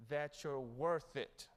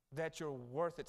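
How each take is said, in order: First: Very slow, each word weighed; slow preacher's assurance; slow emphatic. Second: Said in the usual way. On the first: Shown as a demonstration. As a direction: let "worth" land slowly.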